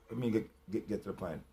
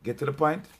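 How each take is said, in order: First: Drops to a near whisper, much softer and lower; hushed repeat. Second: Said in the usual way. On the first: Acted. Quietly repeating his own demand to himself, hushed. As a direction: mutter it under the breath.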